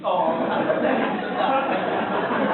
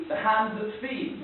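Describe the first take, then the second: First: Drawn-out "Oh", laughing, louder, falling end; dawning realisation. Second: Slow, rising answer on "The hand that feeds"; puzzled guess. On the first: Acted realisation of the taste. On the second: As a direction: draw out "The hand that feeds" and lift the end. Savouring listener puzzles out taste. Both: Acted.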